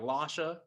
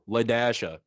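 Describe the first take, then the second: First: The name is said without a middle 'dash' syllable. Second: The name is said with a middle 'dash' syllable. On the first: It is read the way the spelling seems to suggest. The speaker calls it wrong. "as you think it is" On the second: The hyphen in the spelling is spoken aloud. The speaker calls it right. "You got to pronounce the dash"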